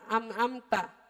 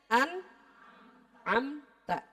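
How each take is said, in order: First: The first syllable ends with an m sound. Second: The first syllable ends with an n sound. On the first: The speaker calls it wrong. "suka kebelit bacanya suka kecepatan" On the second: The speaker calls it right. "Berarti dibacanya an amta"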